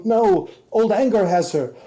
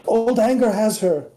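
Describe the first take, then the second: First: Agitated revelation. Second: High, stressed anger repeated; agitated revelation. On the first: Butterfly agitated. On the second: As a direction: press the words old anger. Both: Acted.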